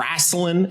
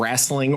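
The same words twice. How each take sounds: First: The word is said in a Southern accent. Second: The word is said in a standard accent.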